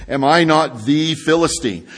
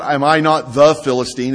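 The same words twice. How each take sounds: First: THE said as an emphatic "thee"; stress on THE. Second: Said in the usual way. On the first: Shown as a demonstration. Preacher corrects the reading of Goliath's boast, stress on THE as "thee". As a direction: lean on THE, pronounced "thee", before Philistine. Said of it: "There's an emphasis there on the". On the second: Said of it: "It's not".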